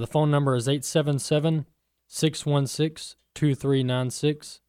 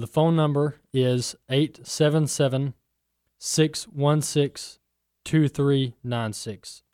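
First: The number is read at a fast pace. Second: The number is read at a slow pace.

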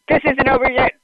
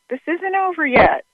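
First: It is said in a menacing, threatening tone. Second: It is said in a calm, reassuring tone.

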